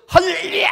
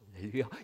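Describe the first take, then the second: First: It is said loudly in a high pitch. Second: It is said softly in a low pitch. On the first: The speaker is agitated and intense. The speaker calls it wrong. "막 이래요" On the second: The speaker is calm and gentle. The speaker calls it right. "저음으로"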